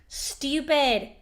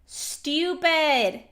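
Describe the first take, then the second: No difference in how they are said.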